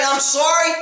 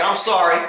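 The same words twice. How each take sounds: First: Sorry thrown back with disbelief; mock the weak apology in disbelief; incredulous mock sorry. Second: Meek, lower mumbled sorry; sheepish apology. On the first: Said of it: "and you're gonna say". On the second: Retold or imitated. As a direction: apologize like a caught rookie. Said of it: "Oh man, that was my room".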